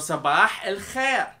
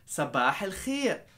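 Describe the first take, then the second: First: It is said in a heavier, firmer way. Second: It is said in a softer, lighter way.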